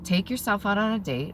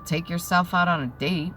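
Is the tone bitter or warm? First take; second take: warm; bitter. First: It is said in a warm, caring tone. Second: It is said in a bitter, resentful tone. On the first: The speaker means nothing hurtful by it. "I could say to you a simple sentence like" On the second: The speaker is projecting their own pain. "It's how it's delivered"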